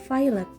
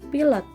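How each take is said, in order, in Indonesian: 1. Diucapkan dengan bunyi bahasa Inggris. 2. Diucapkan dengan bunyi bahasa Indonesia. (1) "dibaca dalam bahasa Inggris yaitu pilot" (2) "bukan pilot"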